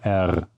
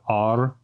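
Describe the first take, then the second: First: The R is a French-style R. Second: The R is an English-style R. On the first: The speaker calls it right. "they say R" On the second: The speaker calls it wrong. "they don't say the R"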